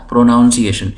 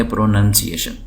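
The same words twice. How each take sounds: First: پروناؤنسیشن with "noun" as its second syllable; common mispronunciation. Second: پروننسیشن with "nun" as its second syllable; correct pronunciation. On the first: Retold or imitated. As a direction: say پروناؤنسیشن as pro-NOUN-si-ay-shun. (پروناؤنسیشن میں "نن" کی جگہ "ناؤن" بولنا) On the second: Shown as a demonstration. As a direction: say پروننسیشن as pro-NUN-si-ay-shun. (پروننسیشن میں "ناؤن" نہیں، "نن" بولنا) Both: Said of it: "یہ لفظ ظاہر ہے غلط ہے".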